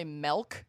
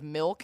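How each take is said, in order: First: "milk" with an E vowel, as "melk"; regional "melk". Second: Said in the usual way. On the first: Shown as a demonstration. Friend mocking local speech, "milk" pronounced "melk". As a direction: say "milk" so it rhymes with elk. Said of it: "say milk instead of milk". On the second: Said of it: "instead of milk".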